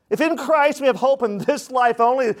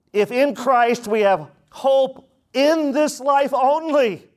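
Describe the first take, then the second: First: Christ leaned on, higher pitch; stress on christ. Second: Lands hard on in, slow; emphatic repetition. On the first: Preacher repeating the line to the church, stressing Christ. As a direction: put the weight on Christ. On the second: Preacher pressing the point to his congregation, slow and emphatic. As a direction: drive the first word home, slowly. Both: Shown as a demonstration. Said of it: "repeated for emphasis".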